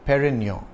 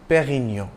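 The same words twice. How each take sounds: First: The R is pronounced as an English R. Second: The R is pronounced as a French R.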